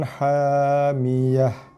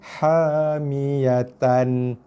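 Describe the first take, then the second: First: The word ends with a silent-vowel h sound. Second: The word ends with a t sound and -an. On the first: The reader stops at this word. "kita waqaf pada ta bulat, maka kita baca ... kepada huruf ha mati" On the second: This is the original form without stopping. "Daripada asalnya"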